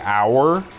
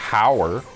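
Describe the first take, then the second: First: The word starts with a vowel, no H. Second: The word starts with an audible H sound. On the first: The speaker calls it right. "you don't pronounce the H" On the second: The speaker calls it wrong. "you don't say hour"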